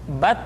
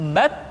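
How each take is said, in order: First: The t is made against the teeth. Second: The t is made against the gum ridge. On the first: The speaker calls it wrong. "Tidak boleh membaca huruf ta misalkan dengan menyentuhkan ujung lidah dengan gigi kita" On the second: The speaker calls it right. "menyentuhkan ujung lidah kita dengan gusi-gusi gigi seri bagian atas"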